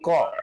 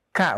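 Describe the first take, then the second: First: The vowel is rounded, like 'o'. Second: The vowel is open, like 'a'. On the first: The speaker calls it wrong. "bukan ko" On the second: The speaker calls it right. "Ka, huruf K ya"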